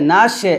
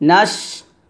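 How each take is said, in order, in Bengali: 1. "sh" ধ্বনির পরে একটি স্বরধ্বনি আসে। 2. "sh" ধ্বনিটি স্পষ্ট বাতাস ছেড়ে দিয়ে উচ্চারিত হয়। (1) "নাশে এটা কিন্তু না" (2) "বাতাস বের করবেন"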